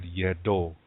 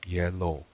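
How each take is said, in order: First: It is said in the D dialect form. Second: It is said in the Lakota form.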